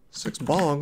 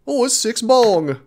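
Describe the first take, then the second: First: Said in the usual way. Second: High, loud, slow mock-British; hammed-up British answer with drawn-out vowels; terrible British accent. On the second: Streamer playing Londoner telling the time, hammed-up British accent. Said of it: "terrible British accent".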